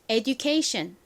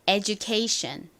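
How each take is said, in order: First: The d is said as a plain d sound. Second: The d sounds softened toward a j sound. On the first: "그냥 education 이라고 발음을 해주셔도 괜찮습니다" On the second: "이 du 역시 살짝 지읒 소리가 섞인 느낌으로 발음이 납니다"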